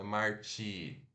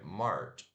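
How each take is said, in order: First: An extra 'ee' vowel is added at the end. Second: The word ends on the 'ch' sound, no vowel. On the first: The speaker calls it wrong. "Não é Marchi" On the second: The speaker calls it right. "é March"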